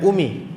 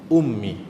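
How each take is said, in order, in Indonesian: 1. Bunyi m singkat, tunggal. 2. Bunyi m ditahan lama, digandakan. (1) "bukan umi" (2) "ummun dia ada sabdu"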